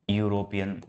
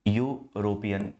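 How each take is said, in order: First: Said in the usual way. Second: European drawn out slowly, each syllable यू-रो-पि-यन clear; slow pronunciation demo. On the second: Shown as a demonstration. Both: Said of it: "आप इसका उच्चारण कहो".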